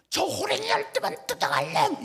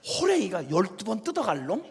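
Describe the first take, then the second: First: High-pitched mock curse, imitating an exasperated mother; mother shuddering with fury. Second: Said in the usual way. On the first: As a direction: hurl a hammed-up curse after a fleeing son. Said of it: "우리 엄마가 막 치를 떨면서". (치를 떠는 엄마 흉내, 높은 욕설) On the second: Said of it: "가만히 생각해봐요".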